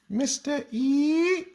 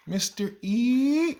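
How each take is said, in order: First: Much higher and slower, rising on E; mock childlike lilt going way up; imitating the kids' sing-song. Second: Much higher, slow, with a rise at the end; teacher mimics student calling his name, high lilting rise; imitating her sing-song. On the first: Teacher mimics the class copying her, very high sing-song. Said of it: "I don't know why they go up like that". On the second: Mimicking student saying his name, drawn-out high rise. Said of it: "That's how she says my name".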